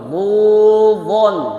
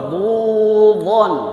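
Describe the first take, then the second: The two takes are said the same way.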